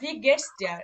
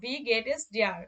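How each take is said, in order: First: 'Geht es' is contracted into one syllable. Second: 'Geht es' is said as two separate words. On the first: "বা ভি গেটস ডিয়ার, এরকম করে বলা যায়।" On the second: "ভি গেট এস ডিয়ার বা"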